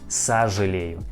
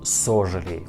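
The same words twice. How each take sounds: First: The first vowel sounds like 'a'. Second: The first vowel sounds like a full 'o'. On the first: The speaker calls it right. "We pronounce like сожалею" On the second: The speaker calls it wrong. "not сожалею"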